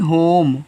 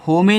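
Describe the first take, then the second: First: The word ends on the m sound. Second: The word ends with an extra vowel sound. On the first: The speaker calls it right. "नहीं होम" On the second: The speaker calls it wrong. "होमे नहीं"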